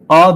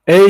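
First: The letter is named the Turkish way. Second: The letter is named the English way. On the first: The speaker calls it wrong. "Ama A harfine A demiyoruz" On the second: The speaker calls it right. "Harf harf İngilizce kodlarken A diyoruz"

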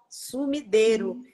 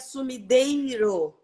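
First: It is said with Spanish sounds, with a plain 'e'. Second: It is said with Portuguese sounds, with an 'ei'. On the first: "ele está em espanhol" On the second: "em português seria sumideiro, um i"

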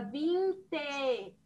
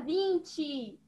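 First: The word ends with an E sound. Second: The word ends with an I sound. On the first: The speaker calls it right. "a gente fala 20. E 7, com a letra E" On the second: The speaker calls it wrong. "A gente não fala 20"

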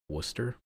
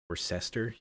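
First: The name is said short, with syllables dropped. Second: The name is said with all its syllables. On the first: The speaker calls it right. "this is actually pronounced Worcester" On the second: The speaker calls it wrong. "you could say"

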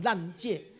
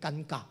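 First: The word is pronounced lan-jie. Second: The word is pronounced gan-ga. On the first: The speaker calls it wrong. "但是他念成烂戒" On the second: The speaker calls it right. "这两个字念尴尬"

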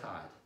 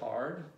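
First: It is said without the R sound. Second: It is said with the R sound.

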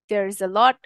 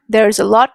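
First: 'There is' is said as two full words. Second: 'There is' is shortened into one quick syllable. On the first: The speaker calls it right. "we were supposed to say there is" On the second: The speaker calls it wrong. "it was very short, like a small kind of there's"

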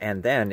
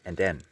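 First: The words are pronounced in the standard way. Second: The words are pronounced with a speech impediment. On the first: "It wasn't and then" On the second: "I had a speech impediment. ... it was and then"

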